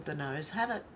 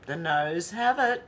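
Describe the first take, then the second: First: Said in the usual way. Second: "The noes have it" drawn out slowly, rising at the end; emphatic announcement. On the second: Real, not acted. Repeats poll result like an announcement.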